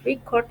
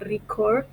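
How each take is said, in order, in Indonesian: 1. Tekanannya ada pada suku kata pertama. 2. Tekanannya ada pada suku kata kedua. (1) "kata record itu adalah noun" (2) "record adalah verb"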